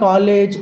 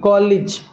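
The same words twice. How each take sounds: First: The final syllable sounds like 'ayj'. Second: The final syllable sounds like 'ij'. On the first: The speaker calls it wrong. "ఇలా చదవకూడదు" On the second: The speaker calls it right. "ఇజ్ అని చెప్తాం"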